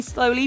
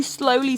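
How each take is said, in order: First: Said in the usual way. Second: "slowly" said softly and drawn out. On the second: Shown as a demonstration. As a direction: let the first "slowly" fade almost to nothing. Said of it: "slowly, bring your arms".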